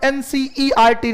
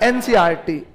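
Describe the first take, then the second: First: Every letter, including the E, is clearly sounded. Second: The E sound is swallowed, jumping from C to R. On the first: "अपन एनसीईआरटी नहीं बोलते" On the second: "ई को खा गए"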